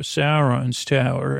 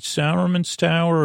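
First: "Sauron's" said as SAR-ons; Sauron pronunciation. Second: "Sauron's" said as SAR-uh-man's; Saruman pronunciation. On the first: She offers the other tower, "Sauron's" as two-syllable SAR-ons. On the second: She asks which tower, "Sauron's" said as SAR-uh-man's. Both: Retold or imitated. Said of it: "always got those two mixed up".

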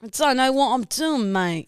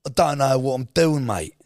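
First: Higher attempt at a London lad accent; copied London accent. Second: Louder, higher put-on London lad accent; London accent demo. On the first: Copying co-host's London accent demo, a better attempt. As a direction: echo the London accent carefully. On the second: Co-host coaching her London accent, exaggerated demo. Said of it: "No, just go, go like". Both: Shown as a demonstration.

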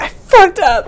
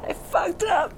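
First: High, loud wail of regret; anguished pitched-up sob; sobbing cry. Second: High, soft broken sobbing; crying, nearly spent; quiet sob. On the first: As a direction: break down crying out the words. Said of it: "burst into sobs". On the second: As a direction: whimper it through tears. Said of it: "she's just sobbing". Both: Acted.

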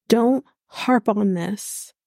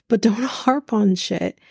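First: "don't" stretched out slowly and leaned on; slow, deliberate "don't harp on this"; stress on don't. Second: "don't" broken by a laugh, a bit slower; laughing repeat. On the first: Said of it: "telling Anna Lee to just". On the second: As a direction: chuckle through the "don't harp on shit" line. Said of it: "harps on shit himself". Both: Shown as a demonstration.

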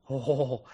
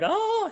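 First: Said in the usual way. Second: High squeaky oh from her; mock surprised squeak from the actress; imitated startled squeak. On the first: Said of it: "and I was like". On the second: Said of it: "those series of noises were made".

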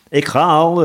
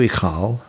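First: High, loud call; eager servant's shouted reply. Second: Resigned little acknowledgement; giving in. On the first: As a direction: shout it while hurrying off. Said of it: "riep de bode". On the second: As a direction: give way without any fuss. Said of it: "gaf de bode toe". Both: A narrator's reading.

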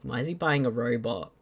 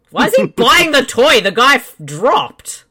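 First: Said in the usual way. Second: Laughing, louder and higher. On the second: Real, not acted. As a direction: laugh through the question.

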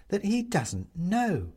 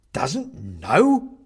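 First: Pointed explanation. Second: Loud, incredulous question; aghast. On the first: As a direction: spell out "doesn't know" slowly and significantly. Woman explains Benedict's ignorance. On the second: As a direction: swoop up on "know" in disbelief. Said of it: "The man takes a step back, aghast". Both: A narrator's reading.

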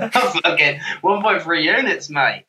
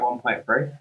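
First: Higher, put-on Aussie accent; hammed-up Australian accent, breaking out of a laugh; mock Australian accent. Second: Said in the usual way. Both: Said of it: "I didn't know you did accents".

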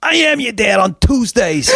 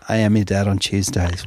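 First: High, loud sing-song retort; hammed-up uncle's sing-song comeback; mock obnoxious uncle. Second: Said in the usual way. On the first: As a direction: belt it like a proud obnoxious uncle. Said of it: "he goes".

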